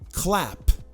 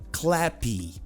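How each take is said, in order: First: The word ends cleanly on the p sound. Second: An extra vowel sound follows the final p. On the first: The speaker calls it right. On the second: The speaker calls it wrong.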